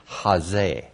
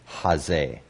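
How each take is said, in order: First: It starts with a strong but smooth h sound. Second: The same.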